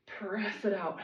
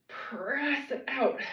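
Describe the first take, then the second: First: Said in the usual way. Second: Slow drawn-out cue. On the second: Shown as a demonstration. Coach cueing a slow press, stretched out. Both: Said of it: "Pause when you get out there".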